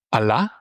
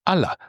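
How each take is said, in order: First: Allah said a-LA, final a stressed; Allah meaning but; stress on final syllable. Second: Allah said A-la, first a stressed; Allah meaning different ones; stress on first syllable. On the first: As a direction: hit the end of Allah. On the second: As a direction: lean on the start of Allah. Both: Shown as a demonstration. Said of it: "depending on where the stress is".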